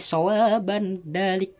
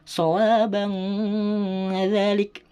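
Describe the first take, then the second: First: The n is said plainly without a nasal hum. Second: The n is held with a long nasal hum. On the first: The speaker calls it wrong. "tidak boleh sawaban dalik" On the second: The speaker calls it right. "Harus dibaca dengung serta samar"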